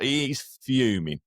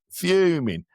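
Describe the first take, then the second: First: Said in the usual way. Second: Fuming said again, higher and louder; emphatic repeat. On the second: Real, not acted. Telling the host how angry his dad is, emphatic fuming. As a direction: punch fuming up high the second time.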